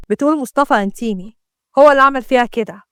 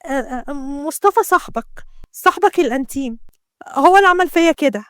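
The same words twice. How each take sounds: First: Mildly sarcastic retelling; mocking. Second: Slyly name the culprit; sly, hesitant start, rising to the accusation. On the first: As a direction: scoff lightly at the claim. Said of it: "يونس اتكلم بسخرية وقال". (بسخرية) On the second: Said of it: "شمس ابتسمت بخبث". (بخبث) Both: A narrator's reading.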